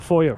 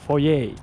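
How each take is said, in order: First: The word is pronounced in an English way. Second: The word is pronounced in a French way. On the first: The speaker calls it wrong. "It's not a foyer" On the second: The speaker calls it right. "It's a French word"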